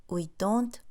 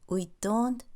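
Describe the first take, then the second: No difference in how they are said.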